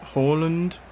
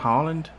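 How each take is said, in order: First: The name sounds like the word Holland. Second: The name begins with a long open 'Haa' sound. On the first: This is how commentators usually say the name. The speaker calls it wrong. "Commentary always call him Hol- Holland" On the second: This is the player's real name. The speaker calls it right. "His name's Erling Haaland"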